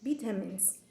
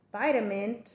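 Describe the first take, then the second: First: Vitamins the British way, starting like "vit"; British pronunciation. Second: Vitamin the American way, starting like "vite"; American pronunciation. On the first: Student repeating the British example, vitamins with a short i. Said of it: "British accent". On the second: Student repeating the American example, vitamin with a long i. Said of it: "for American accent". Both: Shown as a demonstration.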